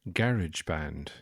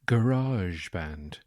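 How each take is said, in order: First: It is said the Irish way. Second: It is said the French-sounding American way.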